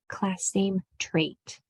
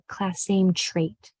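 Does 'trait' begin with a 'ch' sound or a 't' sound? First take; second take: t; ch. First: The 'tr' is said with a clear 't'. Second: The 'tr' is said like 'chr'. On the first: The speaker calls it right. "Pay special attention to that T R" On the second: The speaker calls it wrong. "don't turn it into a chur. It's not"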